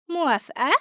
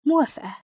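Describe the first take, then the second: First: Put-on "موافقة" asked in a confident ghost girl voice, falling at the end. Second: Firm agreement. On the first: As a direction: offer "موافقة" like a sure deal, her voice higher than the narrator's. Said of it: "وقالت بمنتهى الثقة". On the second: Acted. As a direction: accept with "موافقة" firmly and decisively. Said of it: "مديت إيدي ... وقلت لها".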